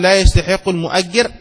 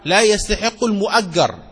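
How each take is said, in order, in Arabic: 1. الجيم تليها حركة 'i'. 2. الجيم تليها حركة 'a'. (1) "هذا خطأ مطبعي" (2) "صواب العبارة لا يستحق المؤجر، فتكون الجيم مفتوحة"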